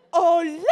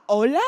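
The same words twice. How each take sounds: First: Louder, exaggerated disbelieving hello; drawn-up, forceful "hello?" of disbelief; incredulous hello. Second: Incredulous hello. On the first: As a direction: call it out as if nobody's thinking. Incredulous reaction, repeated stronger. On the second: Acted. Incredulous reaction, first take.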